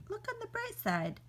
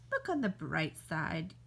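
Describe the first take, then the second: First: High, sing-song look on the bright side; chirpy consolation. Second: Low, deadpan look on the bright side; dry consolation. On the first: After bee stings, offering chirpy high consolation. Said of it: "cheerful consolation, mock bright". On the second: Telling a doomed friend the grim bright side. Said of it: "dry consolation, low". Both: Acted.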